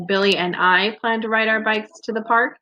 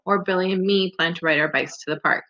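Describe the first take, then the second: First: I lifted and held, rising question at park; stress on I. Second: Me in an even, quicker reading, settling down at park; second option. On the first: Teacher offering students the first choice to compare, stress on I. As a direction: offer it as a choice, leaning higher on I. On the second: Teacher offering students the other choice, quicker and even. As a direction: read the alternative briskly, me left unlifted. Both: Shown as a demonstration. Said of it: "Which one sounds better?".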